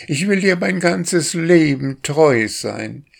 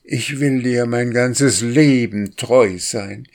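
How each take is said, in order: First: Much higher, stress on dir; courting drake, more ardent. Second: Higher drake voice, stress on Leben; courting drake. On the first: Drake repeats his vow to the duck, higher and more ardent. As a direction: lift it high and lean on dir. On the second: Drake courts the wild duck, sweet and higher. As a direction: woo her with a lilting promise on Leben. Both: A narrator's reading. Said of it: "machte der Wildente Komplimente".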